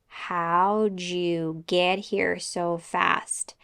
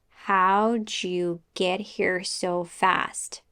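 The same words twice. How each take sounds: The two takes are said the same way.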